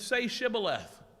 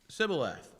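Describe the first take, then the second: First: The word begins with an SH sound. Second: The word begins with a plain S sound. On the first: The speaker belongs to the Gileadites. The speaker calls it right. "the Gileadites used S H" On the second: The speaker is exposed as an Ephraimite. The speaker calls it wrong. "the Ephraimites naturally pronounced it with the simple S"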